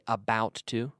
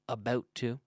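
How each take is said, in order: First: It is said with an American accent. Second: It is said with a Canadian accent. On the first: "An American would say about to" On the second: "I'm using my Canadian accent"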